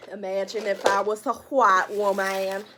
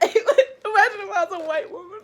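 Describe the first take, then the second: First: Loud put-on white woman voice; mock white woman. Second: High, loud, through laughter; laughing shriek. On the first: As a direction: play an exaggerated white woman, loudly. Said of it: "I'm just playing". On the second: Real, not acted. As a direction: shout it high while cracking up. Cracking up at own joke.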